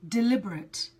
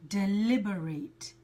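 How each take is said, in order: First: It is pronounced the way the adjective is. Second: It is pronounced the way the verb is. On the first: It describes something done on purpose. "the adjective, which is deliberate" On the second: It means to think carefully about something. "here I'm talking about the verb, and the pronunciation is different"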